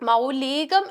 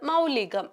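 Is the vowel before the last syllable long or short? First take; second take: long; short. First: The i vowel in the middle is long. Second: The i vowel in the middle is short. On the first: The speaker calls it wrong. "ദീർഘിപ്പിച്ച് പറയേണ്ട ആവശ്യമില്ല" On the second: The speaker calls it right. "ഹ്രസ്വമായിട്ടുള്ള ഇകാരമാണ് വേണ്ടത്"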